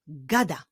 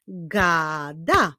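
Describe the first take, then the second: First: Said in the usual way. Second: GADA stretched as GAAA, DA; teacher revealing GAA-DA; syllables drawn out. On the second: Shown as a demonstration. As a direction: slowly join the two syllables of "gada". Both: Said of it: "Składa się z dwóch sylab".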